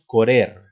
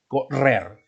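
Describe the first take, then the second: First: The first r is a single light tap. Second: The first r is a strong rolled trill. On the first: The speaker calls it wrong. "No decimos correr" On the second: The speaker calls it right. "suena con sonido fuerte, R fuerte"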